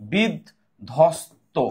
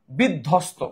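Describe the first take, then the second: First: "বিধ্বস্ত" very slowly, as bid, dhos, to; drawn-out teaching demo of "বিধ্বস্ত", dh heard and no b; broken into syllables. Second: Said in the usual way. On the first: Shown as a demonstration. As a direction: sound out "বিধ্বস্ত" piece by piece, with gaps. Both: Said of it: "বিধ্বস্ত কিন্তু ধ আছে".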